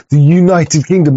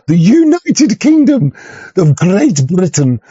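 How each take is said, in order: First: Said in the usual way. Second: Much higher, slow, pompous proclamation; hammed-up stately announcement; mock grandeur. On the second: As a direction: puff it up like a royal title. Mocking grand official name.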